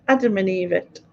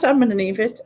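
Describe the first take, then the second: First: "Adam and Evit", with "Adam" sounded in full; corrected rhyming slang. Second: "I'm an Evit", with "I'm an" in place of "Adam and"; mispronounced rhyming slang. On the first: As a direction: say "Adam and Evit" starting on a clear "Ad-". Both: Shown as a demonstration. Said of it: "not I'm an Evit".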